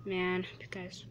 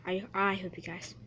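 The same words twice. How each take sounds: First: Hushed unvoiced aside; whispered to the viewers. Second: Said in the usual way. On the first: Real, not acted. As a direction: breathe it under your breath. Whispered aside mid-commentary.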